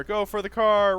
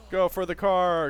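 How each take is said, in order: First: Frantic, high and louder; being chased. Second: Urgent, high and louder; panicked call while fleeing; being chased. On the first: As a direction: yell it, running for cover. Fleeing, repeated louder. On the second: Fleeing zombies in game. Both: Real, not acted.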